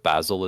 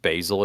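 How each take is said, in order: First: It is said the British way. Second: It is said the American way.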